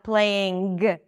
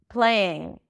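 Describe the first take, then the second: First: The word ends with an audible g sound. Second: The word ends in ng with no g. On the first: The speaker calls it wrong. "not playing" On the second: The speaker calls it right. "No G, no G sound whatsoever"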